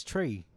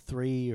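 First: "Tree." said with a plain t, no th sound; Irish accent "Tree." for three. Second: Said in the usual way. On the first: Retold or imitated. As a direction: drop the th in "Tree." like an Irish speaker. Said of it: "he says". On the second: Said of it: "when he says".

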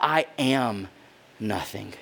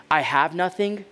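First: Softer, lower, fading out on nothing; a man who believes he is nothing, fading out; sinking to a near-whisper. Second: Said in the usual way. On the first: Retold or imitated. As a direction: let it drop away, defeated. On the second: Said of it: "the internal dialogue changes from".

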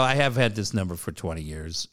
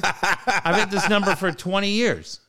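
First: Lower, measured restatement; acting out backing off, low and controlled; retold calmed-down apology. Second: High, drawn-out mock outrage; exasperated retort, acted out for laughs; retold irate yell. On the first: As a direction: explain it reasonably after having been rude. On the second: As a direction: re-enact being rude to a caller, pitched up and slowed. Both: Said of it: "no reason for me to yell at you".

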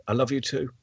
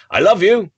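First: Softer I love you too; boy says "I love you too" barely aloud; under his breath. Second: A higher, louder I love you; father calls "I love you" after his son; father calling out. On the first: Little boy answers his father under his breath, much softer. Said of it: "just saying under his, his breath". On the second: Father calls after his running son, louder and higher. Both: Retold or imitated.

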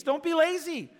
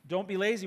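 First: Preacher hammering the point; loud exhortation. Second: Said in the usual way. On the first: Acted. Preacher urging his congregation, loud and high. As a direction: punch it out, higher and louder. Repeated exhortation, first punched.

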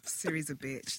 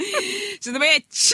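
First: Low, very soft sneaky dig; muted, low insult; sly aside. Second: High, slow drawn-out taunt; exaggerated high-pitched repeat of the dig; cheeky insult. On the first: Pretend. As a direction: slip it in quietly under the breath. Slips in an insult about Siri. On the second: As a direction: draw it out high and teasing. Repeats the insult after protest.

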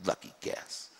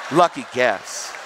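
First: Unvoiced, muttered reply; muttered retort. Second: Mad retort. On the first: Angry man retorting to the preacher, muttered. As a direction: mutter it back under the breath. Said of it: "He goes". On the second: Retold or imitated. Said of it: "He's that mad".

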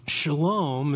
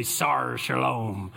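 First: Said in the usual way. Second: Lower, slow pirate growl. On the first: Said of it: "one of my favorite words". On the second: Shown as a demonstration. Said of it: "what if we say that phrase out loud in a pirate voice".

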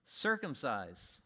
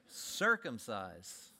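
First: Circumcise said very slowly, lower; slow deadpan. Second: Circumcise drawn out even slower and lower; slower deadpan repeat. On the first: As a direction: let it land slowly, deadpan. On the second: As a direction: repeat it slower, letting it sink in. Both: Acted. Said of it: "What do we do?".

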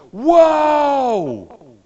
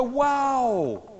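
First: Huge shouted "Wow!", pitch leaping up; full-volume acted shout of amazement; too-loud wow. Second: High, drawn-out "Wow" held short of a shout; moderately voiced, high-pitched amazement; toned-down wow. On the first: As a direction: blast it out in exaggerated amazement. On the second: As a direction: redo the amazement with the volume reined in. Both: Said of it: "I did that too loud".

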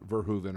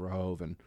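First: VERHOEVEN said ver-HOO-ven; stressed HOO in Verhoeven; OO pronunciation. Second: VERHOEVEN said ver-HOH-ven; stressed HOH in Verhoeven; OH pronunciation. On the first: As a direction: say Verhoeven with an OO in the middle. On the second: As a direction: say Verhoeven with a long OH. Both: Shown as a demonstration. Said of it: "however you say it".

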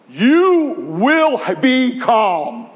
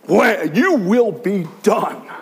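First: Slow, loud, drawn-out command; commanding rebuke. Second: Commanding rebuke. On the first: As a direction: order the sea to be still. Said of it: "Christ is saying". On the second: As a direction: rebuke the storm once more. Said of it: "Like that". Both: Retold or imitated.

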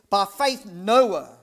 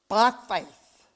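First: "By faith Noah" slow and loud; stress on faith. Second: "by faith" pushed out louder; stress on by faith. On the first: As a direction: stretch out "By faith Noah" with weight. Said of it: "he wanted to emphasize". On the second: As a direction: lean on "by faith". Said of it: "to place an emphasis on the word faith". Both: Shown as a demonstration.

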